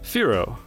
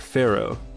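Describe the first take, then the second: First: The first syllable sounds like 'fear'. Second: The first syllable sounds like 'fair'. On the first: It matches the game's theme. "I suppose it would be pronounced Fearow" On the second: It is a childhood habit. "when I was a kid, I always called it Pharaoh"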